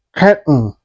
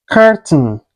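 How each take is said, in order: First: CURTAIN with a catch for the T, "cur'n"; swallowed T. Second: CURTAIN with the T released before N; T fully pronounced. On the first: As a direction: say "curtain" American style, swallowing the T. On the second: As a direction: say "curtain" with an audible T. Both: Shown as a demonstration. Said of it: "is pronounced like".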